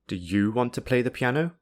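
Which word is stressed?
you. The strong stress is on the word you. Only this listener is being asked, not anyone else. "This is emphasizing that the speaker is only asking you"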